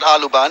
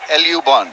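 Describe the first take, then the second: First: The name begins with the sounds 'ah-loo'. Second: The name begins with the sounds 'el-oo'. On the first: The speaker calls it wrong. "Alu means a potato, so it's not Alu Band" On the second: The speaker calls it right. "it's L U Band"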